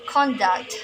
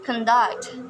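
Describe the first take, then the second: First: The stress is on the first syllable. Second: The stress is on the second syllable. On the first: It is used as a noun. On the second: It is used as a verb. "but in verbs"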